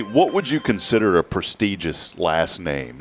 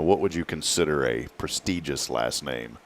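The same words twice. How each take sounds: First: Said in the usual way. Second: Softer, lower, harmless asking; not hateful. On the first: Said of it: "Now, I'm not saying this hatefully". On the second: Real, not acted. Host carefully asking co-host about local family names, not hateful. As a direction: ask it gently, without any edge. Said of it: "I'm not saying this hatefully".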